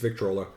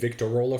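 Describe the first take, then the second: First: No vowel is said between t and r. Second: An extra vowel is said between t and r. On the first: The speaker calls it right. "It's Victrola" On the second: The speaker calls it wrong. "I was saying Victorola for some reason"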